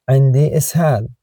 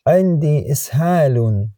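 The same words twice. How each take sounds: First: Quicker dialect Arabic, إسهال cut short to ishal; colloquial Arabic. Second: Standard Arabic, إسهال said ishalun with its case ending; formal Arabic. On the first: Tutor gives the everyday dialect phrase, quick and casual. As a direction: clip إسهال to ishal, no ending. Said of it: "dialect version after the formal one". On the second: Tutor reads the formal phrase to a learner. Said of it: "formal version before the dialect one". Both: Shown as a demonstration.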